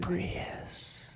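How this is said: The word is whispered softly. "I like it less when you whisper it"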